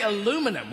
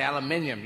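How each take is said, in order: First: Aluminum as a-LOO-mi-num, four syllables; aluminum, four syllables, no extra i; American pronunciation. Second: Aluminium as al-yoo-MIN-ium, five syllables; aluminium, five syllables, stress on MIN; British pronunciation. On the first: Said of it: "you say". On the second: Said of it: "we say". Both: Shown as a demonstration.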